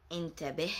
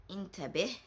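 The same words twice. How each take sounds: The two takes are said the same way.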